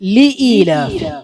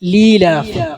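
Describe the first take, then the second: First: The short li is kept before the glottal stop. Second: The words merge into one long vowel. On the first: The speaker calls it right. "ലി ഈലാഫി എന്നാണ് വായിക്കേണ്ടത്" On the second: The speaker calls it wrong. "ചിലര് പറയുന്നത് ഇങ്ങനെയാണ്"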